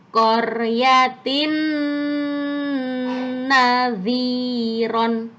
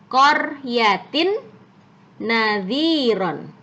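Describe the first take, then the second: First: The nasal sound between the words is held long. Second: The nasal sound between the words is short. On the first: "harus ditahan dulu yang lama" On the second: "awalnya apa tulisannya?"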